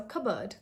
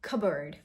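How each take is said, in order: First: Cupboard as "CUB-ud" in Indian English; Indian-accented cupboard, no R, softly. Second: Cupboard as "CUB-erd" with an R; correct pronunciation. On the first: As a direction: cupboard without P or R, Indian style. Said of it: "pronounce it in an Indian accent". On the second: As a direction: say Cupboard low, without P. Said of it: "No P sound". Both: Shown as a demonstration.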